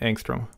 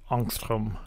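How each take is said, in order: First: The word has an American-style pronunciation. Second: The word has a Swedish-style pronunciation. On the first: This ignores the word's original culture. "As an American, ... So I'm going to say angstrom" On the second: This follows the word's original culture. "I should really be pronouncing it angstrom"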